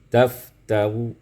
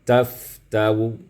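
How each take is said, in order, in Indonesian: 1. Kata ini berakhir dengan vokal samar, sebagian bersuara. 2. Kata ini berakhir dengan vokal samar, sebagian bersuara.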